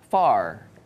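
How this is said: The final R sound is clearly pronounced. "Amerika tuh kebanyakan uh, R di akhir itu dibaca"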